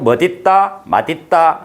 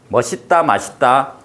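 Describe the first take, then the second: First: The linking consonant sounds like d. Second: The linking consonant sounds like s. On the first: This follows the original standard rule. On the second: This is the form allowed because people say it.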